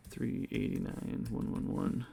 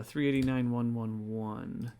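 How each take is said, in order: First: Softer, half-whispered repeat of the numbers; muttered to himself. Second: Said in the usual way. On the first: Real, not acted. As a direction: mumble the figures under your breath to check them.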